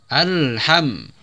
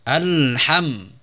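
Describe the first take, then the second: No difference in how they are said.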